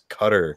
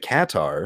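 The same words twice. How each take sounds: First: It sounds like the word cutter. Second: It does not sound like the word cutter. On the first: This is how people who have been there say it. "the closest way to say it is Qatar, like you know just like you like C U T T E R" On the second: This is how the airline's radio ads say it. "the radio ads for the airline, they say Qatar"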